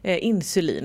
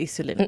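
First: An 'n' sound comes before the 's'. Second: No 'n' sound comes before the 's'. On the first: The speaker calls it right. "Insulin, inte isolin" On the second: The speaker calls it wrong. "inte isolin"

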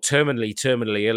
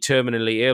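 First: It is said in a North American accent. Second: It is said in a British accent.

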